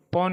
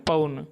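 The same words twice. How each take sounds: First: पौन with a single 'aw' vowel, like English pawn; गलत उच्चारण. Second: पौन as 'pa-un', gliding from a to u; औ का उच्चारण. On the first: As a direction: flatten the औ in पौन, the form to avoid. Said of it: "पौन नहीं बोले". (पौन को बिना 'अउ' के, 'पॉन' जैसा बोलें) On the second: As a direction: pull पौन's vowel into 'a-u'. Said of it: "यहाँ औ बोले". (पौन को 'पउन' जैसा बोलें) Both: Shown as a demonstration.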